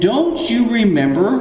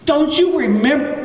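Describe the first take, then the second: First: Said in the usual way. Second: High-pitched, incredulous exasperation; acted exasperation. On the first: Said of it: "He goes like this". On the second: Jesus to his disciples in the boat, exasperated. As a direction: play a teacher at his wit's end, voice pitched way up. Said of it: "because it says he was exasperated".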